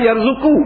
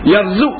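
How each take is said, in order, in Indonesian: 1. Kata itu berakhir dengan vokal setelah konsonan. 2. Kata itu berakhir dengan konsonan mati. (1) "asal yarzuku" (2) "dia baca dengan mati huruf qaf, baca sukun"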